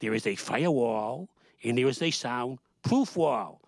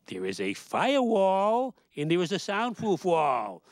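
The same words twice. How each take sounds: First: Said in the usual way. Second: "firewall" and "soundproof" drawn out slowly, each word spelled out for them; slow emphatic restatement. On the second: Shown as a demonstration. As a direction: explain it slowly like to a child. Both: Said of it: "Let's say it again".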